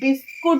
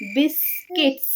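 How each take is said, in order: First: It is said as the plain Bengali form 'biskut'. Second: It is said as English-style 'biskits' with final s. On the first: This is how it is said at home. "আমরা ঘরে কিন্তু বিস্কুট বলবো" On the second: This is said to sound modern in public. "ওখানে গিয়ে বলবো বিস্কিটস"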